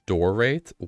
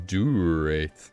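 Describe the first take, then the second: First: The first syllable contains an 'or' sound. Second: The first syllable has no 'or' sound. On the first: The speaker calls it wrong. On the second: The speaker calls it right.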